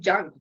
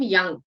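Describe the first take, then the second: First: The name begins with a J sound. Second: The name begins with a Y sound. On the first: The speaker calls it wrong. "Other people will just say junk" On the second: The speaker calls it right. "decent people will call him young"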